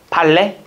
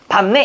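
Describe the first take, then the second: First: The first syllable ends in an L sound. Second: The first syllable ends in a P sound. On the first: The speaker calls it wrong. "이러진 않잖아요" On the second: The speaker calls it right. "밥내 이러잖아요"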